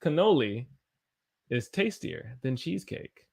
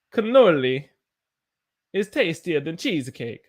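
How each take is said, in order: First: Said in the usual way. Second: Lilting sing-song read; odd playful reading. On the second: Real, not acted. Teacher reading a chat line in a playful lilt. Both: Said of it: "I don't know why I said it like that".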